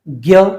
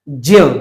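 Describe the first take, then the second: First: It begins with a g sound, like gya. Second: It begins with a j sound, like jya. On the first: This is how people say it in everyday speech. "आम बोलचाल में हम इसको ज्ञ बोलते हैं" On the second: This is how the letters break down. "इसका अगर हम विच्छेद करते हैं तो इसका आता है आधा ज और अय"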